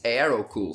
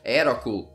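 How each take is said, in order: First: The name is said with English pronunciation. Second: The name is said with Portuguese pronunciation. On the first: "in English I think it's" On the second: "in Portugal we pronounce it"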